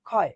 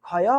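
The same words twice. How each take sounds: First: ক্ষয় closed as one syllable, "khoy"; correct, closed ending. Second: ক্ষয় misread with an added vowel, "khoya"; ক্ষয় with its final sound opened into "ya"; wrong, open ending. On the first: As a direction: stop ক্ষয় on the y, no vowel after. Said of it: "দেখো তো এখানে হসন্ত দিয়েছি". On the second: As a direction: say ক্ষয় as two syllables, "kho-ya". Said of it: "নাকি". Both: Shown as a demonstration.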